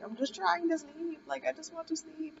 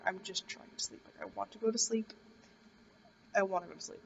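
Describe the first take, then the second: First: Mad and fed up. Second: Whispered pleading. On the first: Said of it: "I got really mad". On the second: Pleading to be left to sleep. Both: Retold or imitated.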